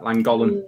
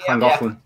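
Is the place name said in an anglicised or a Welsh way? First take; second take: anglicised; Welsh. First: The name is said with anglicised sounds. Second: The name is said with Welsh sounds. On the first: The speaker calls it wrong. "everyone just called it Llangollen" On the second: The speaker calls it right. "as opposed to Llangollen"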